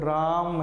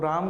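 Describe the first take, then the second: First: The first vowel is stretched out long. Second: The first vowel is said short. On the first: The speaker calls it right. "रा को थोड़ा सा लंबा खिंचाते" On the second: The speaker calls it wrong. "राम करके नहीं बोलते"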